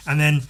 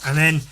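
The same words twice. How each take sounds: The two takes are said the same way.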